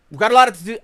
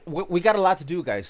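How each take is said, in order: First: Louder, punchy we got a lot to do; emphatic. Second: Said in the usual way. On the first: Real, not acted. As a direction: hype it up loud. Louder first take.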